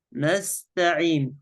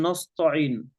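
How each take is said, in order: First: نستعين slow, thin na and light whispery ta; correct light ta. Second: نستعين darkened to "nosto'in", heavy t; wrong heavy ta. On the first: Sheikh models the correct word, slow light ta. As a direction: keep "نستعين" light and measured. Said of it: "حروف تاء". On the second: Sheikh shows what we don't say, heavy letters. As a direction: thicken the first vowels of "نستعين". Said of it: "لا نقول نستعين". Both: Shown as a demonstration.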